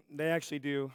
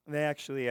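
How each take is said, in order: First: Hoarse, raspy throat; rough voice like a longtime smoker; smoker's rasp. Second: Said in the usual way. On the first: Real, not acted. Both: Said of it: "wow, I sound like I've been smoking for twenty years".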